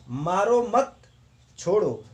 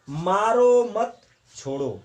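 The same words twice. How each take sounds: First: "मारो मत" then a clear pause before "छोड़ो", so it means don't hit, let go; pause after mat. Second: "मारो मत छोड़ो" read slowly with a slight pause after "मारो", so it means hit, don't spare; slow, deliberate "मारो ... मत छोड़ो", pausing after "मारो"; slow demo phrasing. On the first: Teacher shows students how a comma changes meaning, pausing after "मत". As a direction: break the line as "मारो मत ... छोड़ो", with the stop after "मत". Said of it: "इस वाक्य से स्पष्ट हो रहा है कि कह रहा है कि मारो मत छोड़ दो".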